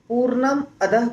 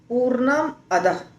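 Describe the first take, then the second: No difference in how they are said.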